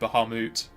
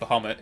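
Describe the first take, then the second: First: The name is said the intended way. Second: The name is said the speaker's usual way. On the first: The speaker calls it right. "It's meant to be Bahamut" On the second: The speaker calls it wrong. "As I always said"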